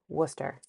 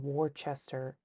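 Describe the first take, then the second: First: It is said the local Massachusetts way. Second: It is said the way outsiders say it. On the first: The speaker calls it right. "the way we're, you actually are supposed to" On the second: The speaker calls it wrong. "a lot of people will say ... No"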